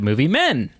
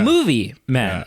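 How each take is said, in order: First: The stress is on the word men. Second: The stress is on the word movie. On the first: The focus is on men rather than movies. The speaker calls it wrong. "instead of saying the movie Men" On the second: The focus is on movies, not on men. The speaker calls it right. "I should have put emphasis on the word movie"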